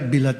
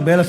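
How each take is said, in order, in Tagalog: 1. Ang unang patinig ay parang 'i'. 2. Ang unang patinig ay parang 'e'. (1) "sa Bisaya, bilat yun eh" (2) "Sa Tagalog, belat"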